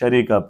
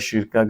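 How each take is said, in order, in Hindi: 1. यह मानक अरबी रूप में कहा गया है। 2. यह बोलचाल के बोले जाने वाले रूप में कहा गया है। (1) "हम इसको स्टैंडर्ड अरेबिक में शरीका प्रोनाउंस करते हैं" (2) "वहाँ ज़्यादातर शिरका शिरका का लफ्ज़ आपने सुना होगा"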